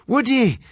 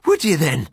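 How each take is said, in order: First: High, sharp Irish challenge; Irish friend crying out in surprise; cried out. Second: A hint of an Irish brogue, teasing; Irish doctor friend. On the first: Acted. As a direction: throw it back at him, startled. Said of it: "he cried". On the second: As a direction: roll it out like a hearty Irishman.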